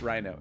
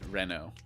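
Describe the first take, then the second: First: The first vowel sounds like 'eye'. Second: The first vowel sounds like 'eh'. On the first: This is how most people say the name. The speaker calls it wrong. "that's Rhino" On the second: This is how the name is meant to be said. The speaker calls it right. "It's meant to be Reno. So like it like R E as in it rhymes with cello"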